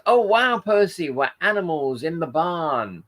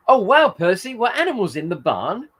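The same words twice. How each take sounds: First: "were animals in the barn" read with a falling end, like a statement; misread intonation. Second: High, loud "Oh, wow, Percy", then "barn" rises as a question; corrected question intonation. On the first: Real, not acted. Host misreading a viewer's comment aloud, falling statement tune. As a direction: start high on "Oh, wow", let "barn" drop. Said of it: "it's my reading. Wrong in".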